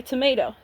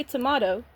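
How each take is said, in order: First: "tomato" with an AY in the middle; "tomato" rhyming with "potato"; American-style tomato. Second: "tomato" with an AH in the middle; "tomato" rhyming with "legato"; British-style tomato. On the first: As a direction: say "tomato" as tuh-MAY-toh. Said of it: "and you say tomato". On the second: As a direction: say "tomato" as tuh-MAH-toh. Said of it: "I say tomato". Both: Shown as a demonstration.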